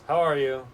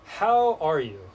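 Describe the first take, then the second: First: It is asked in a flat, automatic way. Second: It is asked with sincere, genuine interest.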